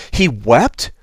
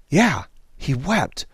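First: "He wept?" with a rising, doubtful lift on wept; disbelieving "He wept?"; incredulous question. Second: Slow, softened "Yeah, he wept." settling the question; solemn affirmation. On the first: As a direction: ask "He wept?" like it's hard to believe. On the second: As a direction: answer "Yeah, he wept." gently and with weight. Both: Shown as a demonstration.

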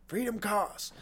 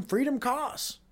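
First: Freedom costs dropped softer in an odd put-on voice; understated sinister echo of the slogan; mock ominous, softer. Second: Freedom costs lifted high like a slogan; hammed-up patriotic pitch, rising on freedom; mock proclaiming, higher. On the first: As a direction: let the slogan fall quiet and grim. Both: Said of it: "can then say".

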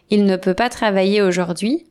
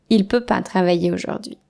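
First: «ne» sounded in «Il ne peut pas»; formal negation. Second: «ne» dropped in «Il peut pas»; casual negation. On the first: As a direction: say every word. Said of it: "À la place de". (avec le «ne») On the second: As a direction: say it loosely. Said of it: "on dit". (sans le «ne») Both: Shown as a demonstration.

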